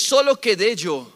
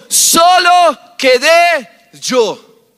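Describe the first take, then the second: First: Said in the usual way. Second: Slow, drawn-out loud cry; Elijah's cry. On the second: Acted. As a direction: hold each word and call it out over the crowd. Elías clama en el relato. (grito lento y prolongado de Elías)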